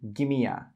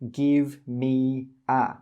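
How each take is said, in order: First: The words run together as gimme a. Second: Each word is pronounced separately and fully. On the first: The speaker calls it right. "we say gimme a" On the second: The speaker calls it wrong. "we don't say give me a"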